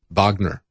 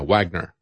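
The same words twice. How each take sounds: First: The name is said the German way, with V. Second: The name is said the English way, with W.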